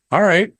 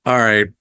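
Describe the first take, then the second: First: A bright, higher, satisfied all right; pleased all right. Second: A flat, falling, let-down all right; resigned all right. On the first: Reviewer recalling his first thought, pleased and upbeat. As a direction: sound won over by the opening. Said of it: "I'm thinking". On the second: Reviewer recalling his letdown at the cheap look, resigned. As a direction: shrug it off, unimpressed. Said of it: "but I'm like". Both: Retold or imitated.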